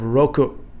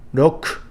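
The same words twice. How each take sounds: First: Every syllable is fully pronounced, including the final vowel. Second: The final vowel is dropped, ending on the consonant.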